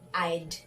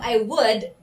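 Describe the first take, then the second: First: The words are shortened into one syllable. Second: Both words are said in full. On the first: "ito ay magiging I'd" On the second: "Instead of I would"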